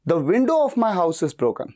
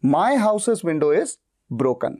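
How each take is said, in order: First: Window said slowly and punched; stress on WINDOW. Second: My punched, said very slowly; stress on MY. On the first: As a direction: hit the word window, slow and clear. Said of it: "मैं खिड़की पे जोर दे रहा हूं". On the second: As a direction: hit my, drawn out. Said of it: "तब sentence को मैं कैसे बोलूंगा". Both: Shown as a demonstration.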